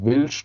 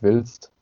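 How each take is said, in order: First: The word is pronounced in the Palatinate dialect form. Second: The word is pronounced in the standard German form. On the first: The speaker's habitual regional form. "sage ich willst zum Beispiel" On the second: The form standard speakers would expect. "nicht willst"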